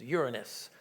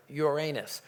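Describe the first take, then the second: First: Uranus said as YOOR-uh-nus; Uranus with a short, weak middle syllable, YOOR-uh-nus; stress on first syllable. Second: Uranus said as your-AY-nus; Uranus pronounced like "your anus"; stress on second syllable. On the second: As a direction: say Uranus with a long, stressed AY in the middle. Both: Shown as a demonstration. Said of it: "Some people call it".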